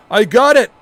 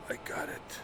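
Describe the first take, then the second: First: High, shouted assurance; loud insistence. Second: Hushed, voiceless whisper; very soft whispered aside; whispered assurance. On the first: Insisting he can handle it. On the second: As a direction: whisper it under your breath. Repeats assurance under his breath. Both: Acted.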